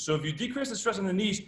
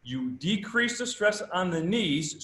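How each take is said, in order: First: Said in the usual way. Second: Slow, every word of "you decrease the stress on the knees" weighted; slow emphatic reading. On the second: Shown as a demonstration. Coach spelling out the study's finding, slow and emphatic. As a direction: lay out the finding slowly, leaning on "decrease". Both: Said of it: "what it says is".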